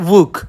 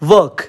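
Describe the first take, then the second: First: The vowel is a short 'oo' sound. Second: The vowel is the standard 'er' sound. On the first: "they say wook" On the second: "we say work"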